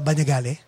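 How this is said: The name is said with a Filipino pronunciation. "That's how you would say it, ba? ... In the Philippines"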